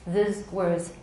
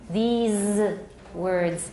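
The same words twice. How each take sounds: First: The vowel is short and the final s is voiceless. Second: The vowel is long and the final z is voiced. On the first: The speaker calls it wrong. "In Taiwan English, it's often these words" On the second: The speaker calls it right. "It should be these words. Long E, voice Z"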